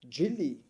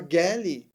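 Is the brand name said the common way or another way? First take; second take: common way; another way. First: The name is said the way most people say it. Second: The name is said in a less common way.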